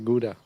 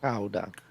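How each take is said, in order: First: The word is said with an American pronunciation. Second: The word is said with a Dutch pronunciation. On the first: "The Americans say Gouda" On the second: "We just say Gouda"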